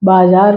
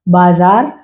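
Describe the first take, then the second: First: "बाजार" said with j, baa-jaar; wrong j sound. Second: "बाजार" said with a clear z, baa-zaar; correct z sound. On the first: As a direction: regional slip turning the z of "बाजार" into j. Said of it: "लिखेंगे तो गलत हो जाएगा". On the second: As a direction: stress the z in "बाजार" as in standard Hindi. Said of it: "बाजार सही होगा". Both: Shown as a demonstration.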